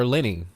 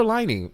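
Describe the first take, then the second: First: Lyney said with a long i, like LYE-nee; Lyney self-corrected to LYE-nee; Lyney as LEE-nee, the corrected version; corrected name. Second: Liney said with a short i, like Linney; Liney read as LIN-ee; Liney as LIN-ee, not LYE-nee; first guess at the name. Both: Shown as a demonstration. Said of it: "or Lyney".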